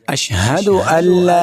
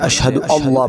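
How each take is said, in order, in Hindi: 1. alla में L की आवाज़ हल्की और बारीक लगती है। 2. alla में L की आवाज़ भारी और मोटी लगती है। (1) "इस लाम को बारीक पढ़ेंगे" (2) "इसको तो मोटा पढ़ते हैं"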